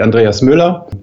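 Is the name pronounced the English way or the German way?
German. The name is said with a German pronunciation.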